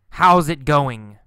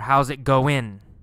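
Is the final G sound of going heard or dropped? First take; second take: heard; dropped. First: The final G sound of going is pronounced. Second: The final G sound of going is left out. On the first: "sometimes G" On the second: "Sometimes no G sound"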